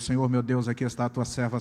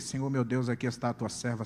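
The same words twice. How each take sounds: First: The words are said loudly and forcefully. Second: The words are said quietly and timidly. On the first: The speaker prays boldly without shame. "mais alto" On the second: The speaker is embarrassed to pray in public. "E eu com vergonha"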